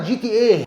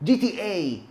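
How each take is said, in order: First: The final vowel is short and clipped. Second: The final vowel is stretched out long. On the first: The speaker calls it wrong. "بلاش بلاش تقولها" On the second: The speaker calls it right. "واسحب فيها كده"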